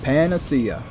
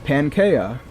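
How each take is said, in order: First: The word is said as 'pan-uh-SEE-uh'. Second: The word is said as 'PAN-kee-uh'. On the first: The speaker calls it right. "Nope, it's a panacea" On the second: The speaker calls it wrong. "For my entire life, I was like"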